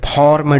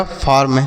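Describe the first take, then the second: First: "फॉर्म" with an open aw, as form; wrong AW vowel. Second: "फार्म" with a long aa before r; correct AA vowel. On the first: Teacher showing children a misreading of farm, "फॉर्म" as fawrm. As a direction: say "फॉर्म" with aw instead of aa. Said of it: "ऐसे कुछ नहीं पढ़ना है". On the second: Teacher reading out F-A-R-M, "फार्म" with long aa. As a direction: say "फार्म" as faarm. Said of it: "यह हो गया फार्म". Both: Shown as a demonstration.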